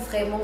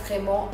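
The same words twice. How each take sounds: The two takes are said the same way.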